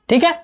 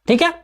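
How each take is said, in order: No difference in how they are said.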